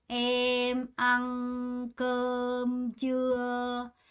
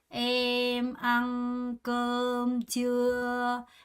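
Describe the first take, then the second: Both takes have the same delivery.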